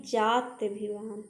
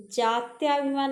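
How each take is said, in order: First: जात्यभिमान with a short 'tya'; short middle vowel. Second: जात्याभिमान with a long 'tyaa'; long middle vowel. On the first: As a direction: keep 'tya' brief in जात्यभिमान. (जात्यभिमान में 'त्य' छोटा) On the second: (जात्याभिमान में 'त्या' लंबा) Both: Shown as a demonstration. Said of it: "जात्याभिमान नहीं".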